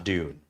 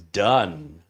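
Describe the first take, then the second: First: The vowel is long, rhyming with 'dune'. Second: The vowel is short, rhyming with 'done'. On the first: The speaker calls it wrong. "not Dune" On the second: The speaker calls it right. "his last name is pronounced as Dunn"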